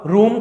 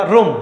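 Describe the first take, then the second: First: रूम with long drawn oo. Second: रूम with short u, rum as in classroom. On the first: Teacher recalling the big vowel, long oo in रूम. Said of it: "बड़ा ऊ था". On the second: Teacher contrasting vowels for students, short u in रूम. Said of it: "छोटा ऊ आएगा". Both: Shown as a demonstration.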